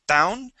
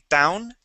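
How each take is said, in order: The two takes are said the same way.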